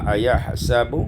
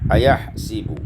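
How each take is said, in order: First: The vowel after the s is a. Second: The vowel after the s is i.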